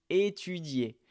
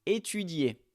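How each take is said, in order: Both takes have the same delivery.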